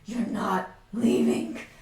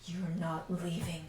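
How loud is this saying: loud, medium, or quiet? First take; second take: medium; quiet. First: It is said at a medium volume. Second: It is said at the quietest volume.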